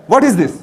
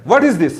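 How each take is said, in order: Both takes have the same delivery.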